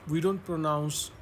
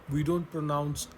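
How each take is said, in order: Both takes have the same delivery.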